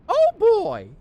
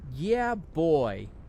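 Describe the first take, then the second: First: It is said in a Mickey Mouse voice. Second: It is said in his own normal voice.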